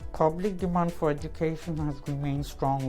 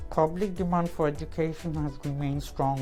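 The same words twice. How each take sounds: First: It is mumbled with the mouth barely open. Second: The same.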